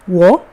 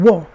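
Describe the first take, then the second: First: The pitch rises from mid to high. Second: The pitch falls sharply from high. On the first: "if it's the second one" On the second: "would be the fourth sound"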